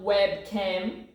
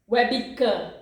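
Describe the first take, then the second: First: The b runs straight into the next syllable. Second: An extra vowel sound follows the b. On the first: The speaker calls it wrong. "It's not webcam" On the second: The speaker calls it right. "it's webcam. Webi, ... we put an E in the middle"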